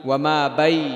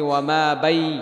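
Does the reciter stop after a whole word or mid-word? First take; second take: mid-word; mid-word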